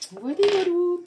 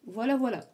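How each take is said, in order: First: High, louder sing-song voilà voilà; playful sing-song. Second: Said in the usual way. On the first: Real, not acted. Tarot reader wrapping up her warning to viewers, playful sing-song. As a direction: toss off voilà, voilà in a bright lilt.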